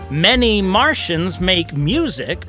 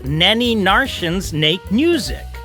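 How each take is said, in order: First: The words begin with clear M sounds. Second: The M sounds are replaced by N sounds.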